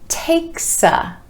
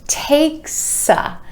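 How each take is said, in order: First: The s sound links onto the a. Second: The s sound links onto the a.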